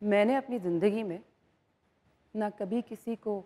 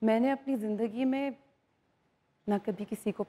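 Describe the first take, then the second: First: It is said menacingly, like a bad person. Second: It is said warmly, like a kind person. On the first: A bad person is saying it. "आप पता लगे एक negative इंसान है।" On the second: A good person is saying it. "पहले अच्छा वाला करते हैं।"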